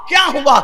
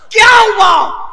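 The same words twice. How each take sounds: First: Said in the usual way. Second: A slow, booming "کیا ہوا؟" with کیا hit hard; shouted question. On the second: Acted. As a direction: roar the question to the crowd. Preacher repeats the question. ("کیا ہوا؟" زور سے، آہستہ اور بلند آواز میں)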